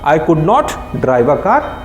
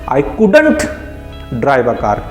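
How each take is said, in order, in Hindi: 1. 'could' और 'not' को दो पूरे शब्दों की तरह बोला जाता है। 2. 'could' और 'not' एक छोटे शब्द में मिल जाते हैं।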